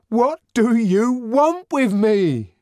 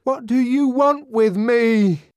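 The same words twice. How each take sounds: First: High, loud, slow demand, stress on want; repeated desperate question. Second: High, loud, slow stressed demand; desperate question. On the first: Savage asking the crowd a second time, desperate demand. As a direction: press the question again. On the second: Savage turning on the grinning faces, desperate demand. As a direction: demand an answer, stress want. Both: A narrator's reading. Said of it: "he asked".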